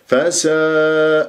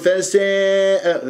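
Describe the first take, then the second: First: The long a vowel stays open and flat. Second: The long a vowel leans toward an e sound. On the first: The speaker calls it right. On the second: The speaker calls it wrong.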